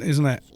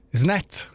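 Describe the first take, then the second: First: Said in the usual way. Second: South Walian "Isn't it?", rising at the end; South Walian accent. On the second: Shown as a demonstration. Streamer showing chat the expected Welsh sound, South Walian accent. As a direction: put on a South Wales lilt. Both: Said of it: "the only Welsh accent is the South Walian".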